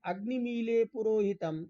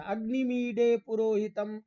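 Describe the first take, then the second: First: अग्निमीले with a plain l, मी-ले; light clear ल in अग्निमीले पुरोहितम; l pronunciation. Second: अग्निमीडे with the tongue curled back on ड; crisp retroflex ड in अग्निमीडे पुरोहितम; retroflex d pronunciation. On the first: Teacher contrasting the two Vedic readings, with l. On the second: Teacher contrasting the two Vedic readings, with retroflex d. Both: Shown as a demonstration. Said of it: "डलयो रभेदः".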